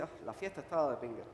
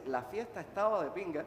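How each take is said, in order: First: Quick, quieter, sour "Ah" with "estaba" falling; disgusted complaint. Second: The party was great, "estaba" lifted; enthusiastic praise. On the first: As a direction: brush it off as a terrible party. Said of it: "puede ser que era la peor fiesta del mundo". (con fastidio, rápido y más bajo, "estaba" cayendo) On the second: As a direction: say it as a compliment, stress on estaba. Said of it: "quiere decir que era tremenda fiesta". (con entusiasmo, "estaba" resaltado) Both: Shown as a demonstration.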